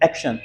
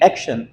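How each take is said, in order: First: A full vowel is heard between sh and n. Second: The same.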